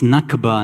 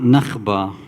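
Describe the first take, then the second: First: The consonant before b is a hard k. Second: The consonant before b is a raspy kh. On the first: The speaker calls it right. "it's Nakba" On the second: The speaker calls it wrong. "not Nakhba. ... That Kha pronunciation"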